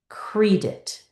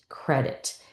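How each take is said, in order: First: The first vowel is a long ee sound. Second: The first vowel is a short eh sound. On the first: The speaker calls it wrong. "this vowel is going to scream his name" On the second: The speaker calls it right. "close in this first syllable"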